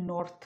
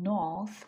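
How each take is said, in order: First: "নর্থ" with the r sounded, "nort"; wrong pronounced r. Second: "নর্থ" as "nawth", no r; British r-less "নর্থ"; silent r. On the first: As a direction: sound the r before the final th in "নর্থ". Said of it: "not নর্থ". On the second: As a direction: drop the r in "নর্থ", long aw vowel. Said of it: "কিন্তু আমি উচ্চারণ করতেছি". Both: Shown as a demonstration.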